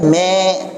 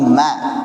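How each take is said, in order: First: The syllable is thinned too far, toward me. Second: The syllable ma sounds light and thin. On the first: The speaker calls it wrong. "Jangan juga berlebihan me" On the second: The speaker calls it right. "tapi ma. Tipis ma"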